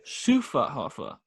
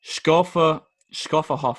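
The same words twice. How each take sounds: First: Schufferhofer said slowly, shoo-fer-hoh-fer with a soft sh; careful slow Schufferhofer, oo vowels; corrected pronunciation. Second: Schofferhofer said with a hard sk, shkofferhofer; stumbling Schofferhofer with a k sound after the sh; wrong try. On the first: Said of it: "that makes more sense". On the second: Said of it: "Doesn't sound right". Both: Shown as a demonstration.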